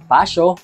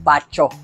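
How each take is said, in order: First: The middle consonant is an s-y sound. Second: The middle consonant is a ch sound. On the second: "hindi nababasa bilang Pacho"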